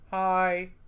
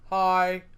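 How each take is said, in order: Both takes have the same delivery.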